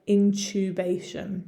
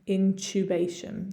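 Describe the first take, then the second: First: It is said in a British accent. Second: It is said in a British accent.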